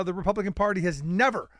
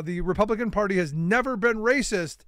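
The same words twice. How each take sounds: First: Said in the usual way. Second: Never leaned on with extra weight; stress on never. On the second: Shown as a demonstration. Mocking Haley's claim, hitting the word never. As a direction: press hard on the word never, then let it go. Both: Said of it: "an emphasis on the word never".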